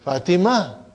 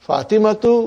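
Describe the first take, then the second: First: The name ends in -a, ending dropped. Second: The name ends with a full -tu ending.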